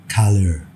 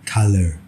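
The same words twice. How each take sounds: Both takes have the same delivery.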